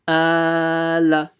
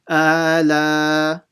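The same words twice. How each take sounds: First: Only the first vowel is long; the second is short. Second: Both vowels are drawn out long. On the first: The speaker calls it right. "the second letter is not supposed to be stretched" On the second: The speaker calls it wrong. "they stretch both of them"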